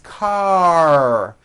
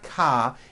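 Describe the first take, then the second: First: The word ends with a strong R sound. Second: The word ends on an open vowel without R. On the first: The speaker calls it right. "it's car" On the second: The speaker calls it wrong. "it's not ka"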